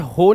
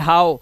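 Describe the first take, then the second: First: The vowel sounds like 'oh'. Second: The vowel sounds like 'ow'. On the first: The speaker calls it wrong. "इसे हो नहीं पढ़ेंगे" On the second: The speaker calls it right. "ओ डब्ल्यू को आउ से भी पढ़ लेते हैं"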